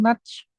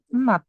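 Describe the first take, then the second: First: The word ends in a j sound. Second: The word ends in a t sound. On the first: The speaker calls it wrong. "bukan nudge" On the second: The speaker calls it right. "dibacanya adalah nut"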